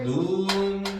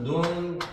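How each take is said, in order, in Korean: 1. 모음을 길게 발음해요. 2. 모음을 짧게 발음해요.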